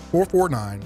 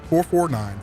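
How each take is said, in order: Both takes have the same delivery.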